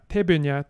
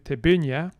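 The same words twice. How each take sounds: First: The stress is not on the second syllable. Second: The stress is on the second syllable. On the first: "we go from" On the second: "stress to penultimate"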